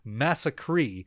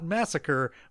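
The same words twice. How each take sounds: First: The word ends in a long stressed 'cree' sound. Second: The word ends in a short unstressed 'ker' sound. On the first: It names a wildly messed-up, unbelievable event. The speaker calls it right. "It's mass" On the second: It names an ordinary mass killing. The speaker calls it wrong. "not massacre"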